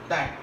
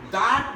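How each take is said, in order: First: The word is said with a reduced vowel. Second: The word is said with a full vowel.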